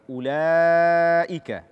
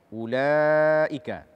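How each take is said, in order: Both takes have the same delivery.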